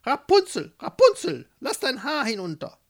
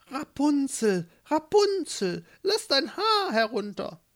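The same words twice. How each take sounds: First: High, loud call up a tower; witch's loud call. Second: Verstellte Stimme. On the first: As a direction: call sharply upward as the witch. (laut und hoch hinaufrufende Hexe) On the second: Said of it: "einmal mit verstellter Stimme". (mit verstellter, hoher Stimme gedehnt rufen) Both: Acted.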